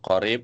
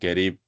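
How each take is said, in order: First: The word begins with a deep Q sound. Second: The word begins with a hard G sound. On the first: "harusnya yang betul qorib" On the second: "mengucapkan huruf qaf itu dengan G"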